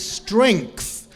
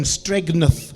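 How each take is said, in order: First: Said in the usual way. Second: Stregneth with a hard G before the N; misspelling pronounced. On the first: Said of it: "I'll put you out of your misery". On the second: Shown as a demonstration. Teacher mocking a common misspelling, Stregneth said with hard G. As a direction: say Stregneth as STREG-neth, sounding the misplaced G. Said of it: "put this G before the N".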